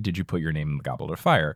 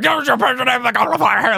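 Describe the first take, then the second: First: It is asked calmly and quietly. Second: It is shouted loudly and angrily.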